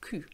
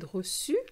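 First: The middle consonant is a k sound. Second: The middle consonant is an s sound. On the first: The speaker calls it wrong. "Otherwise, it would have been Q. It doesn't sound as nice" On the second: The speaker calls it right. "there's a little cedilia under the C, which gives you the su sound"

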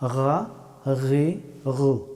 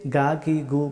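First: The first consonant is made in the upper throat. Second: The first consonant is not made in the throat. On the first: The speaker calls it right. "গাইন হরফটি উচ্চারিত হয় গলার উপরের অংশ থেকে" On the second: The speaker calls it wrong. "এটা শুদ্ধ হবে না"

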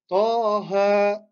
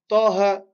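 First: Each vowel is drawn out long. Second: Each vowel is kept short. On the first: The speaker calls it right. "en allongeant chacun" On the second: The speaker calls it wrong. "C'est pas taha"

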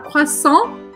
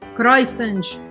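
First: The word ends on the nasal vowel, no T. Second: The final T is pronounced at the end. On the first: The speaker calls it right. "vai falar croissant e parar aqui no AN" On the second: The speaker calls it wrong. "você não vai falar croissant, croissant, nada disso"

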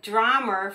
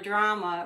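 First: It is said in a Boston accent, ending with R. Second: It is said plainly, with no added R.

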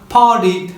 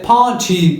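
First: The middle t is a quick flap. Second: The middle t is a clear stop. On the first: "Amerikan İngilizcesinde flap yapılarak" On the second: "İngiliz İngilizcesinde"

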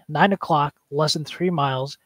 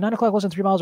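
First: It is said slowly in a firm, stern voice. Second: It is said quickly in a flustered, anxious voice. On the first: The situation is under control and must be acted on. The speaker calls it right. "You're in a stern voice, a parent voice... I'm doing it slow as well" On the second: The speaker is panicking and makes things worse. The speaker calls it wrong. "I'm not like, oh"

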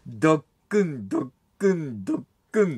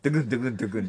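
First: The beats are spaced slowly and evenly. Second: The beats come quickly, run close together. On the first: The heart is beating calmly. "脈拍に近いテンポでゆっくり丁寧に" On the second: The heart is racing from nerves. "緊張してるときは"

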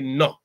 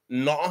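First: It is said with a regional village accent. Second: It is said in the usual local pronunciation. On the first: "he will say it with a little bit of an accent" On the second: "Instead of saying no"

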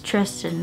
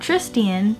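First: The name has two syllables, with no 'ee' sound. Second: The name has an 'ee' sound before the end. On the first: The speaker calls it right. "that's Tristan" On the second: The speaker calls it wrong. "not Tristian"

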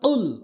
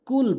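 First: The word starts with a deep q from the tongue root. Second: The word starts with a plain front k sound. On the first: It means: say. The speaker calls it right. "বলতে হবে উল, অর্থাৎ হল জিব্বার গোড়া থেকে উচ্চারণ হবে" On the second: It means: eat. The speaker calls it wrong. "এখানে আমরা অধিকাংশ যে ভুলটা করি সেটা হচ্ছে কুল বলি"

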